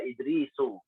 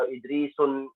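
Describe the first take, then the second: First: The word ends on a vowel without n. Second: The word ends with an added n sound. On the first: The speaker calls it right. "tapi dibaca Idrisu" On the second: The speaker calls it wrong. "Tidak boleh dibaca"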